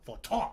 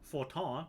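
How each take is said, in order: First: The final syllable is forced out with a punch. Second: The final syllable is soft and understated. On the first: The speaker calls it right. "You gotta add that little ton at the end there. Like you've just been punched directly in the gut" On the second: The speaker calls it wrong. "That's how everybody pronounces it"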